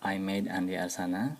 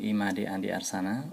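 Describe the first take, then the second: First: The first name sounds like English 'I made'. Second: The first name is said with Indonesian sounds. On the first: The speaker calls it wrong. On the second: The speaker calls it right.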